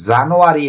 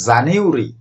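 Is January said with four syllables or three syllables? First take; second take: four syllables; three syllables. First: It has four syllables, with a full 'ah' sound. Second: It has three syllables; the 'ah' sound is silent. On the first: The speaker calls it wrong. "এটির উচ্চারণ জানুয়ারি না" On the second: The speaker calls it right. "এটির উচ্চারণ জানিউরি"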